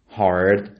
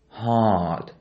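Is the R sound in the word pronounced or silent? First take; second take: pronounced; silent. First: The R sound is clearly pronounced. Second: The R sound is dropped and silent. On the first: The speaker calls it wrong. "we won't pronounce it like this" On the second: The speaker calls it right. "This is so much lazy and flat with no American R sound"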